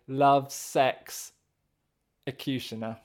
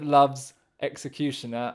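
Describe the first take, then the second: First: Jokey heavy stress falls on 'ex'. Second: The title is said with normal stress.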